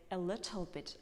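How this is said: The t is said crisply, British style.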